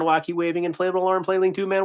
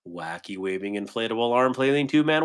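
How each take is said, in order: First: Wacky waving inflatable arm flailing tube man rattled off fast and higher; faster. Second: Said in the usual way. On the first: Shown as a demonstration. Attempting the speed challenge from chat, rushed and higher. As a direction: race through it at speed. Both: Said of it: "Say that as fast as you can three times".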